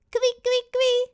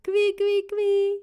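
First: Very high, loud little squeak; baby squeal. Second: High, louder teasing squeal; playful tickle squeal. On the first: Baby Suze suddenly copies her brother, very high squeal. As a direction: mimic the noise as a baby. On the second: Robin about to tickle baby Suze, high playful squeal. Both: Acted.

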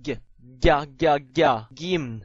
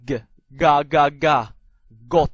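First: Palatalized g, ga said "gya"; soft G. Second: Plain hard g in ga and got. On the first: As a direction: drill ga slowly with a y-glide, then gim. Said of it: "軟音g". (軟音g，ga加耶音慢讀) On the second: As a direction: drill ga slowly, no y-glide. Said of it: "硬音g". (硬音g，慢慢讀ga) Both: Shown as a demonstration.

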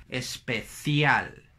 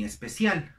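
First: Very slow "especial" with th for c; European Spanish. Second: "especial" with an s for the c; seseo, not European. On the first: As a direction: stretch "especial" around a Castilian th. ("especial" lento, con C castellana) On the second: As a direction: say "especial" as espesial. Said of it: "ellos no dicen". ("especial" con S latinoamericana) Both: Shown as a demonstration.

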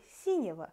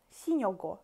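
First: "синего" quick, ending swallowed to -ева; reduced fast ending. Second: "синего" with a clear full O: si-NYE-go; full vowels, careful. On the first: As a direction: rattle off "синего" with the unstressed vowels blurred. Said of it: "It will be already синего". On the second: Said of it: "it's hard to pronounce синего". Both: Shown as a demonstration.

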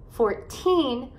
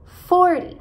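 First: Put-on FOURTEEN with the accent on TEEN; four-TEEN, second syllable emphasized in FOURTEEN; stress on final syllable. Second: FORTY with FOR high and loud; FOR-dy, quick light ending on FORTY; stress on first syllable. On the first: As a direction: stretch the end of FOURTEEN. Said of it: "enfatizar as sílabas no final". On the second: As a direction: punch the start of FORTY. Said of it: "enfatizar as sílabas no começo". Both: Shown as a demonstration.

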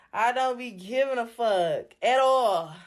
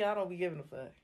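First: Slow, each word of I don't be giving a fuck at all leaned on; slow emphatic defiance. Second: Said in the usual way. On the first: Real, not acted. Drunk streamer telling viewers she doesn't care, slow and defiant. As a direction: drag it out and lean into every word.

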